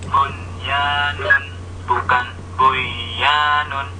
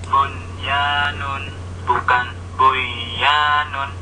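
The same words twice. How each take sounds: The two takes are said the same way.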